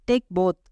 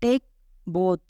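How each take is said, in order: First: Said in the usual way. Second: "Take ... both", clear pause between the words; one word at a time; split teaching repeat. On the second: Shown as a demonstration. Teacher repeating an English phrase for learners, word by word.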